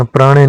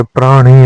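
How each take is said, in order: First: प्राणी with a short, slack ending; wrong form. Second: प्राण ही with a long final ee; correct form. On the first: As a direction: say praa-ne for प्राणी. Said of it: "नहीं होता". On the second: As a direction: stretch the ending of प्राण ही as praa-nee. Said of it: "होता है". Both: Shown as a demonstration.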